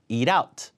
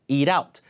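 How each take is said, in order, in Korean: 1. t는 플랩으로 나서, 가벼운 l 소리처럼 들려요. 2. t는 플랩으로 나서, 가벼운 l 소리처럼 들려요.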